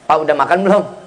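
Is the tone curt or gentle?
curt. The question sounds curt and unfriendly. The husband answers just as curtly. The speaker calls it wrong. "Kalau nada seorang istrinya judes, jawaban laki lebih judes"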